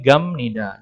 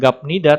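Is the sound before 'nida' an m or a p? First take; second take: m; p. First: The sound before nida is an m. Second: The sound before nida is a p. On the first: The speaker calls it right. "tapi gamnida" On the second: The speaker calls it wrong. "dibacanya pun bukan gapnida"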